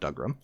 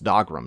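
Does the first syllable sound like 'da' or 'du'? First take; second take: du; da. First: The first syllable sounds like 'du'. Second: The first syllable sounds like 'da'. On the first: The speaker calls it wrong. "not Dugrum" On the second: The speaker calls it right. "It's Dogrum"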